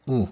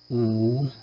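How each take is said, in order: First: U said briefly, as a Latin short vowel; quick short U sound. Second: U held long, as a Latin long vowel; sustained long U sound. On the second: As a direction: draw out the vowel U. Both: Shown as a demonstration. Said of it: "para as vogais breves".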